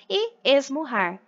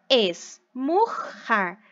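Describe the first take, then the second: First: Said in the usual way. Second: "esmurrar" split very slowly into syllables, es-mur-rar; syllabified very slowly. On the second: Shown as a demonstration. Teacher to pupils, separating syllables: very slow "esmurrar". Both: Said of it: "Separei os R's".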